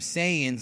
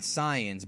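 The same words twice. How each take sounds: First: It uses the English dub pronunciation. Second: It follows the original Japanese-based pronunciation. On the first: This is the form from the English dub. The speaker calls it wrong. "Funimation had actually goofed up ... they called them Saiyans" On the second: This is the form from the original Japanese. The speaker calls it right. "and not Saiyans, but the actual correct pronunciation"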